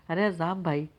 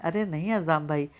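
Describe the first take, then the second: First: Lightly voiced happy surprise, only a touch lifted; glad surprise. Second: A lightly voiced quick interruption; cutting in. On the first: Wife answers a cousin's phone call, lightly pleased and surprised. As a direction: greet him with mild glad surprise. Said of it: "حیرت خوشی کا اظہار کیا". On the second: Wife interrupts her cousin on the phone, mildly dismissive. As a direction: cut him off, brushing his worry aside. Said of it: "ٹوک دیا". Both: A narrator's reading.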